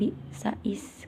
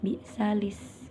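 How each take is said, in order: First: The words are linked without an l sound. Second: The words are linked with an l sound. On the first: The speaker calls it wrong. "bukan bi'sais" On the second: The speaker calls it right. "jadi disambung bi'salis"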